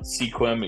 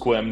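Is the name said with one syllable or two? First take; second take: two; one. First: The name is said as two syllables. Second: The name is said as one syllable. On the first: The speaker calls it wrong. "not Sequim, ... that's how I used to pronounce it" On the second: The speaker calls it right. "pronounced Squim"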